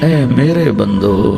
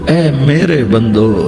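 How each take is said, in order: The two takes are said the same way.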